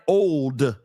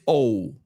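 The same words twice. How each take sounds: First: The word ends with a clear d sound. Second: The word ends without any d sound. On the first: It is merely old. "It's not old" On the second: It is extremely old. "The D on the word old has been rubbed off"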